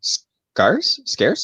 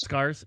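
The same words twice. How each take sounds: First: Scarce said with an ar vowel, rising, like scars; Scarce? as a puzzled question, said like scars; mispronounced scarce. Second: Scarce said plainly to correct a friend; Scarce, as a flat correction; correct pronunciation. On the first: Real, not acted. To friends who ask him to repeat it, Scarce? said like scars, unsure. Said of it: "It's not scar". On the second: Shown as a demonstration. Correcting her friend's Scarce, said plainly. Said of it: "It's not scar-, it's scarce".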